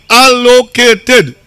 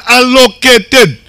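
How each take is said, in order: First: "Allocated" slow, stretched out syllable by syllable; stress on Allocated. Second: Said in the usual way. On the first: Shown as a demonstration. Speaker stressing the budget word to the crowd, "Allocated" slowly emphasized. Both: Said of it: "Let me emphasize on that word".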